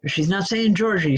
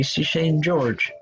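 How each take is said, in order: First: Said in the usual way. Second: Slow, lean on "George" as one syllable; slow and firm on the name "George"; stress on George. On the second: Shown as a demonstration. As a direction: draw out "George", not "Georgie".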